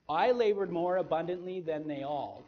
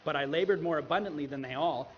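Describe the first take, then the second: First: It is read at a slower pace. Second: It is read at a fast pace.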